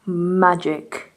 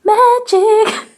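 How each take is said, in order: First: Low, understated "Magic". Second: High, loud "Magic" with a rising end. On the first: Vlogger showing a little trick on camera, low magic. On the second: Vlogger repeating it playfully on camera, high magic. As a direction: shoot "Magic" up high and louder. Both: Pretend. Repeating a word two ways.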